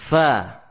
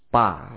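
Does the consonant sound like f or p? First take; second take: f; p. First: The consonant is made with lip against teeth. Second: The consonant is made with both lips closed. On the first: The speaker calls it right. "ini huruf fa yang fasih" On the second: The speaker calls it wrong. "bukan dengan kedua bibir pa, ya, pa, ya, tidak demikian"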